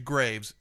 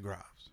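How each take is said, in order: First: It is pronounced the American English way. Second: It is pronounced the French way. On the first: "It's actually Graves in the United States" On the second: "Because in France, they say Graves"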